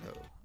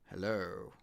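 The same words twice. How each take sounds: First: It is said fast. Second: It is said slowly.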